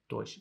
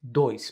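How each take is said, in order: First: The word ends in a sh sound. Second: The word ends in a drawn-out s sound. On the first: "in Portugal it's a lot more like a dois, dois with a sh at the end" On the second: "Brazil draws out that s sound"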